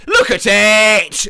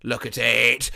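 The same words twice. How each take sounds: First: Loud, slow, drawn-out LOOK AT IT; proud shout. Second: Said in the usual way. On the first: Pretend. Seller shouting to the buyer to look at his homemade lasagna, loud and slow. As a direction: bellow it out, showing off the lasagna.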